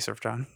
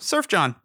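First: The first syllable has an R sound. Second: The first syllable has no R sound. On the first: The speaker calls it wrong. "please don't say Surf John" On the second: The speaker calls it right. "people will mispronounce his name. So"

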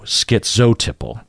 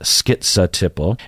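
First: The second syllable ends in an 'oh' vowel. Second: The second syllable ends in an 'uh' vowel. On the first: "And then you also hear zo" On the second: "I say skitza, skitza-tipple"

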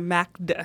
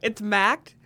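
First: The D is released into an extra final syllable. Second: The D closes one syllable with no extra vowel. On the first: The speaker calls it wrong. "I was just trying to pronounce the D" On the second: The speaker calls it right.

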